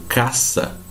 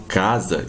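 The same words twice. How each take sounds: First: "caça" with a hissed, unvoiced S; Spanish S sound. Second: "casa" with a voiced Z in the middle; Portuguese Z sound. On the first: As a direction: say "caça" slowly with a sharp S, never Z. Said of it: "sempre pronunciada como S". ("caça" com som de S, à espanhola) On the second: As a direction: say "casa" with a buzzing S, like Z. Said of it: "eu não falo casa". ("casa" com som de Z, em português) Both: Shown as a demonstration.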